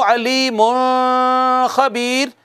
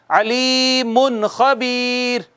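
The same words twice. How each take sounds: First: अलीमुन खबीर drawn out slowly with the नून held back; slow wrong take. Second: अलीमुन खबीर slowly, the नून touched and passed; slow correct take. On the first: Teacher contrasting two readings for students. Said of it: "क्या ऐसे पढूं". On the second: Teacher offering the second reading for comparison. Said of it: "या यूं पढूं". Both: Shown as a demonstration.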